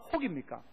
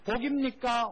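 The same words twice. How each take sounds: First: 혹입니까 said with a soft breathy h at the start of 혹, set against 복; a lower, falling 혹입니까 with the h sound; contrasting h sound. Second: 복입니까 said with a crisp p at the start of 복, clearly not 혹; careful pronunciation. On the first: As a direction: breathe the h in 혹입니까 lightly, hogimnika. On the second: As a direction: pronounce 복입니까 with a firm aspirated-free p, boginnika. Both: Shown as a demonstration. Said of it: "발음을 똑바로 잘하셔야 됩니다".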